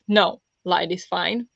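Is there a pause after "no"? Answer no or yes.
yes. There is a pause after "no". The current lighting is okay. "as in the lighting is okay"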